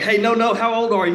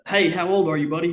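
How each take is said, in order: First: HOW OLD pushed higher and louder, imitating a warden; insistent repeated question. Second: Slightly higher, friendly-question retelling of a warden; lightly voiced game warden. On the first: Warden correcting a confused boy, retold louder and insistent. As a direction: hammer "how old are you" high and loud. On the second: Game warden asking the boy his age, lightly voiced.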